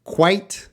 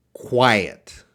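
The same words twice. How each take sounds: First: "quite" said as one clipped syllable, raised pitch. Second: "quiet" said as two syllables, qui-et, falling. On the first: Teacher contrasting "quite" with "quiet" for students, short and high. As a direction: snap "quite" short and high, ending on a hard t. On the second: Teacher contrasting "quiet" with "quite" for students, two falling beats. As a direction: draw "quiet" out into two beats, dropping at the end. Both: Shown as a demonstration. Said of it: "quite, quiet contrast".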